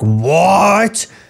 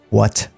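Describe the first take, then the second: First: The word is shouted loudly. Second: The word is said quietly and held back. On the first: The anger is let out openly. The speaker calls it wrong. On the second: The anger is held in, which is scarier. The speaker calls it right.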